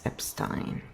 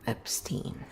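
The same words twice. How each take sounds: First: The name is pronounced with German sounds. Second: The name is pronounced with English sounds. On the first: The speaker calls it right. "that looks like German and it's Epstein" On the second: The speaker calls it wrong. "not Epstein"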